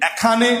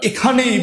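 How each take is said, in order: First: "এখানে" with an open æ first, æ-kha-ne; wrong pronunciation. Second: "এখানেই" with a closed e first, e-kha-ne-i; correct pronunciation. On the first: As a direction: offer "এখানে" as æ-kha-ne, the mistaken way. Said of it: "আমরা কেউ কি বলি". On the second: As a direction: begin "এখানেই" on a pure closed e. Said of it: "আমরা এখানেই বলি". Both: Shown as a demonstration.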